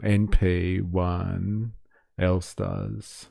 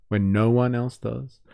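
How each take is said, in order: First: Stumbles over no one as N P one; N P one said as letters, a reading slip; garbled no one read as N P one; misread slip. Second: Said in the usual way. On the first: Real, not acted.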